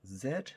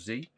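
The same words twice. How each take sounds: First: The letter is said the British way, zed. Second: The letter is said the American way, zee.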